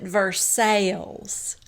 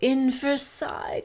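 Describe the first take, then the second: First: Versailles is said the local Kentucky way. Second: Versailles is said the standard, non-Kentucky way. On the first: This is how locals in Kentucky say the name. "in Kentucky, we pronounce it Versailles" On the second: The reader assumes the usual pronunciation. "Lisa is reading it and she says"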